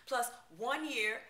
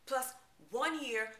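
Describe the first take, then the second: No difference in how they are said.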